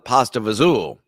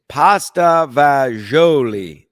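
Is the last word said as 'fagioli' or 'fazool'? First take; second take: fazool; fagioli. First: The last word is clipped to sound like fazool. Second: The last word is said in full as fagioli. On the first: This is how the family said it at home. "My grandmother always, in my Italian side, always called it pasta vazul" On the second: This is the standard Italian name.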